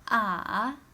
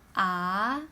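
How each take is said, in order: First: The pitch dips low, then rises. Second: The pitch rises like a question. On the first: "Third tone is like uh huh" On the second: "Second tone is a question rising tone"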